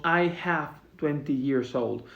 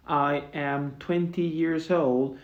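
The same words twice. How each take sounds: First: Said in the usual way. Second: Slow, spelled-out English example; slow careful model sentence. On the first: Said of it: "Es uno de los errores más comunes". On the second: Shown as a demonstration. Teacher modeling the correct form slowly for students. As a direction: lay each word out slowly for the class. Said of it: "tened cuidado con esto".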